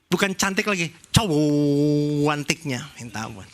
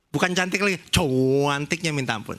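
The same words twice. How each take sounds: First: It is said expressively, in a Javanese Surabaya style. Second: It is said flatly, Jakarta style, without expression.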